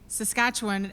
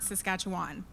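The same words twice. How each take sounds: First: It is said the way locals say it. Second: It is said the way outsiders say it. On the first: The speaker calls it right. "where I learned to say Saskatchewan" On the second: The speaker calls it wrong. "and not Saskatchewan"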